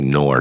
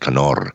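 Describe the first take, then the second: First: The K is silent and the R is not rolled. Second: The K is sounded and the R is rolled. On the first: This is how the family says it in America today. "in America, it's the silent K" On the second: This is the original German family pronunciation. "and actually they roll the R's"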